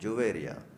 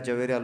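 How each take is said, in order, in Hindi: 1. नाम 'ju' आवाज़ से शुरू होता है। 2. नाम एक छोटी 'ja' आवाज़ से शुरू होता है। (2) "जवेरिया लोग बोलते हैं ना, जवेरिया नहीं है"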